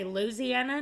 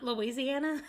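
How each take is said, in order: First: Louisiana said the down-home way, LOO-zee-ana; local pronunciation. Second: Said in the usual way. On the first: Shown as a demonstration. Arkansas Southerner showing how locals say Louisiana, local pronunciation. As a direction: say Louisiana with the second syllable swallowed. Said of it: "down there where we say". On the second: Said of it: "not Louisiana".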